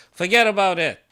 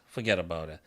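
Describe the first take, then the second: First: Louder emphatic repeat. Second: Said in the usual way. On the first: Real, not acted.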